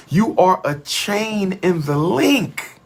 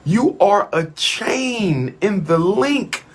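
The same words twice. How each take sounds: The two takes are said the same way.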